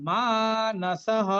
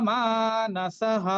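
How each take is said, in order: Both takes have the same delivery.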